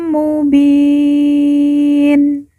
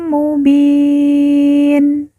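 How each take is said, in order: No difference in how they are said.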